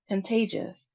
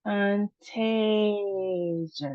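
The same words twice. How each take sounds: First: Said in the usual way. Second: "Contagious" slow, long A in "tay"; second-syllable stress. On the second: Shown as a demonstration. Teacher showing emphasis on second syllable, slow stressed middle. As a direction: draw out the middle of "Contagious" as tayy. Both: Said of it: "emphasis on our second syllable".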